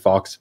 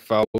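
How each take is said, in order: First: The final x is pronounced. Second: The final x is silent. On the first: This is the speaker's own chosen pronunciation. "So I say fox" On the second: This is the standard pronunciation. "I know it's pronounced like faux"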